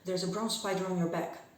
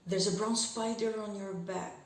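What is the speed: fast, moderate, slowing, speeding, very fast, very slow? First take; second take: very fast; slowing. First: It is spoken at a very fast pace. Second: It starts fast and slows down throughout.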